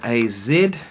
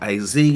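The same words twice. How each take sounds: First: It is said in a non-American way. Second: It is said in an American way.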